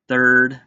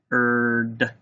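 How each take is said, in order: First: Said in the usual way. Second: "Third" as th, pause, long urd; sounded out. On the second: Shown as a demonstration. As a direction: break "Third" after the th and hold the rest. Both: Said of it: "Let's tap out third".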